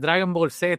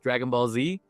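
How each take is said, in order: First: The name is said with Puerto Rican Spanish pronunciation. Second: The name is said with English pronunciation.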